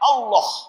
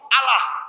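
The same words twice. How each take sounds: First: The L is doubled and held long. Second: The L is short and the word sounds flat. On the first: It is read as in Arabic script. "ketika kita menggunakan bahasa hijaiyah" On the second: It is read literally as a dictionary word. "tidak menggunakan lam tasjid ... dibaca secara monoton"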